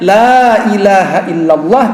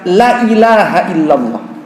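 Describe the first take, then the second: First: The vowel in the first word is long. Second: The vowel in the first word is short. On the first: There is no god but Allah. The speaker calls it right. "Harusnya la ilaha illallah, tiada Tuhan selain Allah" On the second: Truly there is a god other than Allah. The speaker calls it wrong. "keliru dia lamnya dipendekkan"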